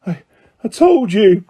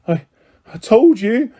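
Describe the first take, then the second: First: Breathless repeat of I told you; gasping. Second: Breathless gasp, pitch up. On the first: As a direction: still winded, pushing the words out. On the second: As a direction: gasp it out, winded. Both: Acted. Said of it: "Hermione gasped".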